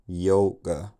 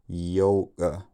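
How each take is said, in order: First: The k is made together with a glottal stop. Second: The k is made together with a glottal stop.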